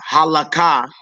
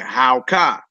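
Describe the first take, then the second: First: The word has three syllables, ha-la-ka. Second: The word has two syllables, with the middle vowel dropped. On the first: The speaker calls it wrong. "you wouldn't say uh halaka" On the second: The speaker calls it right. "you would say howka"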